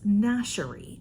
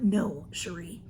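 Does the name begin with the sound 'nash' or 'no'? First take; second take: nash; no. First: The name begins with the sound 'nash'. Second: The name begins with the sound 'no'. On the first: The speaker calls it right. "It's Nashery" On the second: The speaker calls it wrong. "It's not no Cherie"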